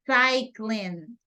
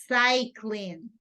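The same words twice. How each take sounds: The two takes are said the same way.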